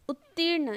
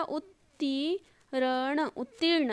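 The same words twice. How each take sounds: First: Said in the usual way. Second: उत्तीर्ण very slowly, "ut-tee-ra-na"; soft, drawn-out syllables in उत्तीर्ण; sounded out. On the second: Shown as a demonstration. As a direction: pull उत्तीर्ण apart sound by sound. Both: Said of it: "इसमें कैसे होगा".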